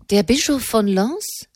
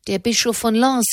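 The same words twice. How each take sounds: First: Higher, rising question in surprise; astonished. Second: Said in the usual way. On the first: A narrator's reading. Enemond hears who the witness was, astonished. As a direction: echo the name in astonishment. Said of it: "rief Enemond erstaunt".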